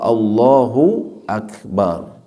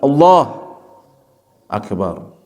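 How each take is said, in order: First: The two words run together without a break. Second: The two words are cut apart by a break. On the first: It means God is the Greatest. The speaker calls it right. "membacanya secara langsung" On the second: It becomes two separate words with separate meanings. The speaker calls it wrong. "Memutusnya gimana?"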